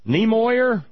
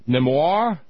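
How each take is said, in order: First: The name is pronounced in an English-like way. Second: The name is pronounced in a French-like way.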